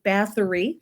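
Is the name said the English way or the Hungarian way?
English. The name is said with a final 'ee' sound. This is how English speakers usually say it. "So we would pronounce it"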